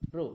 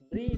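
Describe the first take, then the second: First: The syllable ends in an 'oo' vowel. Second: The syllable ends in an 'ee' vowel. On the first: The speaker calls it right. "হ্যাঁ ব্রু" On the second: The speaker calls it wrong. "ব্রি নয়"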